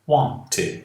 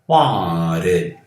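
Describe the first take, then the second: First: The middle t is pronounced as a clear t. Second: The middle t is softened to a d sound. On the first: "é mais fácil pronunciar aqui o T" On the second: "Vejam que eu estou trocando o meu T por um D"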